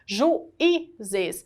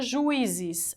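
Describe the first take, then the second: First: The u and i fall in separate syllables. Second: The u and i blend into one syllable. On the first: The speaker calls it right. "a pronúncia é juízes" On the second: The speaker calls it wrong. "se fosse junto, ... eu falava juízes"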